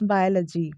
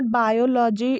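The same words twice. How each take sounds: First: "biology" as BY-uh-luh-jee; low falling "biology" with short "luh"; correct pronunciation. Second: "biology" as by-o-LAW-jee; drawn-out "law-jee" in "biology"; full vowels all through "biology"; wrong pronunciation. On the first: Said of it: "it's biology". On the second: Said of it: "it's not biology". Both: Shown as a demonstration.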